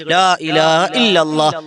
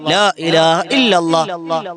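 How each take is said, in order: The two takes are said the same way.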